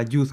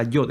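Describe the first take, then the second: First: "Yud" with an oo vowel; correct name demo. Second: "Yod" with an o vowel; wrong name demo. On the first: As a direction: say "Yud" with a clear u before the final d. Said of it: "es la Yud". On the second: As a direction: say "Yod" with a rounded o before the final d. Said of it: "no es la Yod". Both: Shown as a demonstration.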